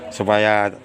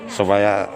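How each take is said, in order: Both takes have the same delivery.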